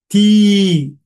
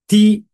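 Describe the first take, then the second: First: The vowel is long. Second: The vowel is short.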